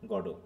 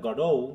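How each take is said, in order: First: Both syllables are said evenly, with no stress. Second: The stress is on the second syllable. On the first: "ফ্রেঞ্চে just গডো" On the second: "ও stress"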